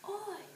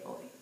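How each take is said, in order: First: It is said in a harsh, punkish way. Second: It is said in a plain, ordinary way. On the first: The speaker calls it wrong. "Doesn't that sounded very punkish? They don't say it like that" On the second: The speaker calls it right. "They say oi instead of adios"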